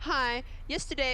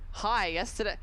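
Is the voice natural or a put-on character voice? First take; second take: put-on; natural. First: It is read in an exaggerated put-on character voice. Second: It is read in a plain, natural voice.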